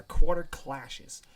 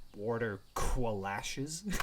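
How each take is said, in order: First: Said in the usual way. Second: "qualashes" drawn out slowly with a kw sound; Q pronunciation. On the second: Acted. Listener queries the silly name, slow "qualashes" with kw. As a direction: stretch "Quarter qualashes", opening both words on kw. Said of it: "With a Q".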